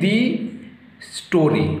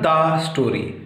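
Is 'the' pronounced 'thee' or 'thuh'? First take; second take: thee; thuh. First: The word 'the' ends in an 'ee' vowel. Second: The word 'the' ends in an 'uh' vowel.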